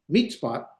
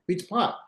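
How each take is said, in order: First: The stress is on the first syllable. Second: The stress is on the last syllable. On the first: The speaker calls it wrong. "You put the emphasis on the first syllable" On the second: The speaker calls it right. "is where it goes"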